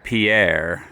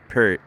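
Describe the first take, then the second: First: The name is pronounced the French way. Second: The name is pronounced the English way. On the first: The speaker calls it wrong. "it's spelled like Pierre, like French" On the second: The speaker calls it right. "but it's Fort Pierre or Pierre"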